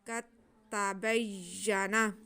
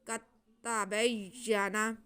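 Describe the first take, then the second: No difference in how they are said.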